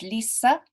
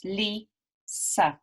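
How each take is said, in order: First: Said in the usual way. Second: "Lisa" as Li, pause, sa; split into syllables. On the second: Shown as a demonstration. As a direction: say "Lisa" slowly in two separated beats. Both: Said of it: "there are two syllables".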